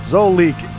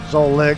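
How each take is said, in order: First: The name ends with a long 'leek' sound. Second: The name ends with a short 'lick' sound. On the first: It suggests a dripping faucet. "incorporating the sound of the leak" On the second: It suggests someone who enjoys licking things. "emphasizing the lick sound at the end"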